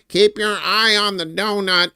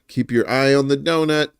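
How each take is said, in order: First: It is said in a put-on imitation voice. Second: It is said in an ordinary speaking voice.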